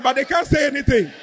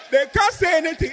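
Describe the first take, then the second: First: Said in the usual way. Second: "can't" pushed up high and hard; emphatic repeat. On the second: Shown as a demonstration. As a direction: hammer "can't" with a raised voice.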